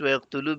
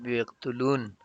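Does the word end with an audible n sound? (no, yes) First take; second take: no; yes. First: The word ends on a vowel without final n. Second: The word ends with a clear final n sound. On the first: The speaker calls it right. "just ويقتلوا because we need to connect noon to the next noon" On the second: The speaker calls it wrong. "not ويقتلون"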